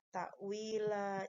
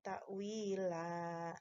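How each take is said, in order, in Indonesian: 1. Kata ini berakhir dengan vokal yang dipanjangkan. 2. Kata ini berakhir dengan vokal yang dipanjangkan.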